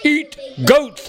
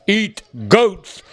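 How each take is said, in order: First: Much higher, hollering monster voice. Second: Dull, blunt monster voice. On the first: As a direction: holler it like a stubborn beast. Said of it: "hollered the big blue monster". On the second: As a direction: say it like a simple hungry monster. Monster states its aim. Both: Acted.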